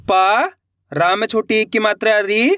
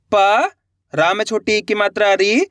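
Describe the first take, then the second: First: प and री spelt out slowly, one by one; syllable by syllable. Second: प and री sounded out slowly, separated; syllable by syllable again. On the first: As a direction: sound out each letter. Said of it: "चलिए देखिए". (एक एक अक्षर अलग बोलना) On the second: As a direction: spell out each letter clearly. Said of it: "देखो किस तरीके से". (अक्षर अलग अलग करके बोलना) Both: Shown as a demonstration.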